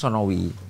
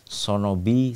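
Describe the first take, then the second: First: The middle consonant is a W sound. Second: The middle consonant is a B sound. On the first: This is how it is written. "sebenarnya tulisannya Sonowi" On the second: This is how the local people say it. "masyarakat susah melafalkan huruf W"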